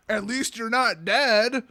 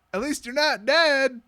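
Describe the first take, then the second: First: Slow, drawn-out mock comfort; mock consolation. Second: Higher, slow, drawn-out mock comfort; mock consolation. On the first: Answering a complaining friend, mock consoling. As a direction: console with hammed-up cheer. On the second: Reader interrupts author with consolation, mock comforting. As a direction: stretch out the hollow consolation. Throws own joke into story.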